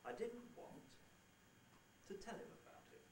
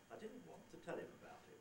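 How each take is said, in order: First: There is a pause after "want". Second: There is no pause after "want". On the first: "with a little pause" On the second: "I don't have to pause there if I don't want to"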